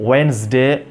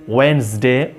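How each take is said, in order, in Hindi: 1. पहला 'd' मौन है, जिससे दो अक्षर बनते हैं। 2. पहला 'd' मौन है, जिससे दो अक्षर बनते हैं।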